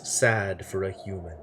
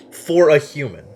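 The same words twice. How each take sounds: First: Measured ancient judge intoning the line; solemn judge. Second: Said in the usual way. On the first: Acted. Judge voice, then repeated plainly.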